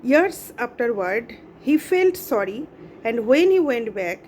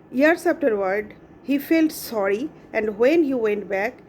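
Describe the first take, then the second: The two takes are said the same way.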